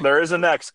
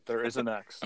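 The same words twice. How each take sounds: First: Said in the usual way. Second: "There is a next" said again, much softer and gently; quiet reassurance of "There is a next"; softer repeat. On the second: Shown as a demonstration. Friend reassuring Caitlin's husband, much softer.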